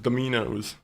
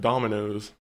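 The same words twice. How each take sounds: First: The name is said with an Italian-sounding pronunciation. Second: The name is said with an ordinary pronunciation. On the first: It makes the chain sound like a fancy restaurant. "makes it sound like a fancy Italian place" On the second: This is how most listeners say it. "as you guys probably pronounce it"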